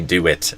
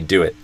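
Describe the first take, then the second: First: The final t is fully released with the tongue. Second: The final t is a glottal stop in the throat. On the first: "I would almost never say do it" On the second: "I'd say do it"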